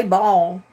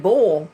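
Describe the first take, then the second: First: "ball" as the misheard word, clearly set apart; BALL not bull. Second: "bull" as the intended word, clearly set apart; BULL not ball. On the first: Streamer repeats what she didn't say, "ball" pronounced open. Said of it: "I didn't say ball". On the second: Streamer insists on what she said, "bull" pronounced rounded. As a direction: say "bull" with a rounded, closed vowel. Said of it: "I said bull". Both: Shown as a demonstration.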